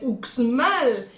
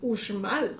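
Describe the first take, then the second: First: The x is pronounced like ks. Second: The x is pronounced like sh. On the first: The speaker calls it wrong. "Y como buen pronunciano llegas y mira las pirámides de Uxmal" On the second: The speaker calls it right. "educadamente te corrige y te dice, es Uxmal"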